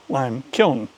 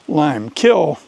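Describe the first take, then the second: First: The word ends with an N sound. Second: The word ends without an N sound. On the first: The speaker calls it right. "It's lime kiln" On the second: The speaker calls it wrong. "My mom dutifully taught me to say lime kill"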